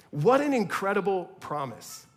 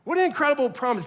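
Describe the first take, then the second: First: Said in the usual way. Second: Higher, louder and faster; excited emphasis. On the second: Shown as a demonstration. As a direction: burst out with wonder. Repeats the phrase, louder.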